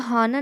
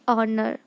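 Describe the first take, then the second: First: The word starts with an h sound. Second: The word starts with a vowel, h silent. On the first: The speaker calls it wrong. "आप इसको हॉनर नहीं पढ़ोगे" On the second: The speaker calls it right. "जो एच है वो silent है।"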